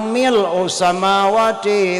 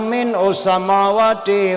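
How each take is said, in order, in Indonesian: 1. Kata sebelum samawati berakhir dengan bunyi l. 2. Kata sebelum samawati berakhir dengan bunyi n.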